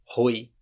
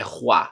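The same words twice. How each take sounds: First: Put-on "roi" read as written, rhyming with "boy"; mistaken spelling reading. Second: "roi" as rwa, throaty R; French "roi", oi sounded as wa; correct French roi. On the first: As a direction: say "roi" with an oi sound instead of wa. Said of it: "não é roi". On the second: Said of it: "É roi". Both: Shown as a demonstration.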